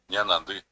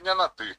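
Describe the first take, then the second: First: The ending uses a nasal nd sound. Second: The ending uses a plain t sound. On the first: The speaker calls it right. "Va a tener que decir ñanandi" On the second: The speaker calls it wrong. "no está pronunciando correctamente"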